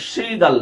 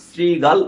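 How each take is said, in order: First: শ্রীগাল begun with sh, "shigal"; wrong sh pronunciation. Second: শ্রীগাল begun with s, "srigal"; correct English-S pronunciation. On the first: Teacher showing students the mistake, শ্রীগাল with sh. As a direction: say শ্রীগাল with a sh sound at the start. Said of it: "শ্রীগাল না". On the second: Teacher correcting students, শ্রীগাল with an English s. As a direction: say শ্রীগাল with a crisp s, not sh. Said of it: "উচ্চারণ হয়". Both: Shown as a demonstration.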